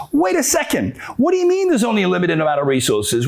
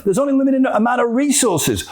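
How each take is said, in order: First: Incredulous challenge. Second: High-pitched mock insistence; insistent claim. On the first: Acted. Doubter challenging the claim of scarcity, incredulous. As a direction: cut in with acted disbelief. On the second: Believer justifying competing for stuff, mock insistent. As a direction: state it as an obvious fact.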